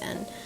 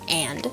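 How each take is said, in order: First: The vowel is weak, sounding mostly like n. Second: The vowel is full and clearly pronounced. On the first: "the A isn't as strong" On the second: "versus like and"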